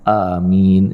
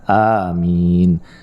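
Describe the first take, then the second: First: The word is very short and pressed. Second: Both vowels are held moderately long. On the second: "A-nya panjang, mi-nya juga panjang"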